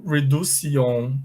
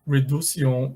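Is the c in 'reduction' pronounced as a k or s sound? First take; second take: s; s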